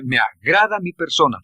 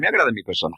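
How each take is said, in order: First: It is said with strong feeling. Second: It is said flatly, without feeling.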